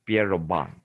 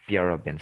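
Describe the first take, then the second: First: Pierrobon with a French-style BON ending; alternative pronunciation. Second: Said in the usual way. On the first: Shown as a demonstration. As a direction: end Pierrobon on "bon" rather than "bin". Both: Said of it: "sometimes they pronounce as".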